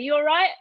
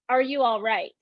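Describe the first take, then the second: First: The question starts directly with 'you'. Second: The full question is said, starting with 'are'. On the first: "They say" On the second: "But they didn't say it like that"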